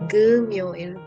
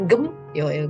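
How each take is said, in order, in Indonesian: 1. Suku katanya tersambung mulus. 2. Suku katanya terpisah dengan jeda. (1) "G terus M-nya naik dong" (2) "bukan gem, yoil bukan"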